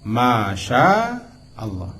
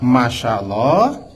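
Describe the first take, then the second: First: The vowel in 'sya' is held long. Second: The vowel in 'sya' is short. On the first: It means 'what Allah wills'. The speaker calls it right. "sya berapa alif? Tiga alif" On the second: It means 'Allah walked'. The speaker calls it wrong. "kalau kita baca pendek"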